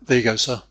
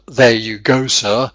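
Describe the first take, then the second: First: The vowels are reduced and run together. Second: The vowels are full and clearly pronounced. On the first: "he says something like" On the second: "instead of"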